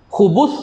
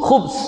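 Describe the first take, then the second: First: A u vowel follows the b sound. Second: No vowel follows the b sound. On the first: It refers to evil devils and jinn. "boleh dibaca dengan baris dhammah" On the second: It refers to evil or wickedness. "ba tu mati"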